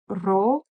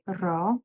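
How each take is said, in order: First: The particle is said as 'ro' with r. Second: The particle is said as full 'ra'. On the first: This is the everyday spoken form. "in colloquial everyday um, per spoken Persian, it's just ro" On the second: This is the formal form. "In more formal speaking, we also say ra"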